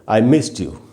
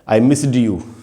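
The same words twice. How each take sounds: First: Missed ends with a t sound. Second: Missed ends with a d sound. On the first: The speaker calls it right. "एंड में टी है" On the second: The speaker calls it wrong. "अब पहले हम कैसे बोल रहे थे"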